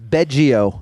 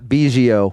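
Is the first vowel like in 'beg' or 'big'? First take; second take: beg; big. First: The first vowel sounds like the one in 'beg'. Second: The first vowel sounds like the one in 'big'. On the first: The speaker calls it right. "It is Beggio" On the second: The speaker calls it wrong. "and not Biggio"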